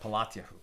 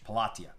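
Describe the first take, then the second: First: The name ends with a Hebrew-sounding '-yahu'. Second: The name ends with an English-sounding '-tia'. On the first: "In Hebrew, this would be a little bit different" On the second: "I'll just pronounce it the way it's written here in English"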